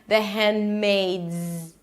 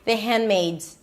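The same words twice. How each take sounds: First: The D is held briefly without release. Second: It is said fast with the D dropped. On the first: "if you want to pronounce it properly, the hand, the D is the held D, you don't release it" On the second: "Sometimes you can even drop it and no one will notice if you say it super fast"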